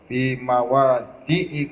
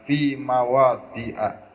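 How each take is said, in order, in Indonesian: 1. Kata itu berakhir dengan vokal 'i'. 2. Kata itu berakhir dengan vokal 'a'. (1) "harus dibaca kasroh" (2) "kalau diberhentikan"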